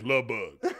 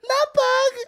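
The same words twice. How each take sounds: First: It is said in a normal, lower voice. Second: It is said in a high-pitched voice.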